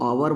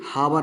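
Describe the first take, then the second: First: The word starts directly with a vowel. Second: The word starts with an h sound. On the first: The speaker calls it right. "इसको आवर बोलेंगे" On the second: The speaker calls it wrong. "हावर नहीं बोलिएगा"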